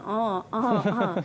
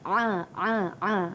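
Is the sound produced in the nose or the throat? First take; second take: nose; throat. First: The sound is made through the nose. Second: The sound is made deep in the throat. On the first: The speaker calls it wrong. "Bukan di hidung ya, bukannya" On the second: The speaker calls it right. "makhrajnya ialah di halqum"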